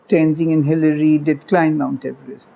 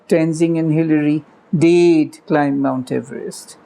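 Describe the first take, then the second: First: The word did is weak and unstressed. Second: The word did is strongly stressed. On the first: "with the did unstressed" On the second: "the emphatic version"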